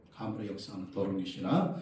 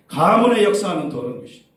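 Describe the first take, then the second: First: Low, hushed rebuke; soft, low voice kept to yourself; inward rebuke. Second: Loud, raised rebuke of an evil spirit; forceful rebuke. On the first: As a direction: say it under your breath, as if inwardly. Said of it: "속으로". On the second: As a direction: burst out commanding, high and loud. Models rebuking the demon. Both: Shown as a demonstration.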